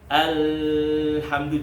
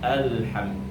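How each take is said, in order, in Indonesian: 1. Bunyi l mengalir bebas dan panjang. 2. Bunyi l mengalir hanya sebagian, lalu berhenti. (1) "Kalau alhamdu jadi rokhawah" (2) "pertengahannya jadi alhamdu"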